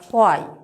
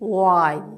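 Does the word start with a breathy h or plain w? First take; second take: breathy h; plain w. First: The word starts with a strong breathy h. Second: The word starts with a plain w glide. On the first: The speaker calls it wrong. "খুব শক্ত করে উচ্চারণ করছি হোয়াই" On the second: The speaker calls it right. "That is ওয়াই"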